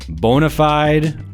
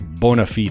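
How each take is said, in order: First: It is pronounced in a plain English way. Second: It is pronounced in a Latin-style way.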